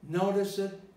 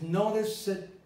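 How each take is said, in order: The two takes are said the same way.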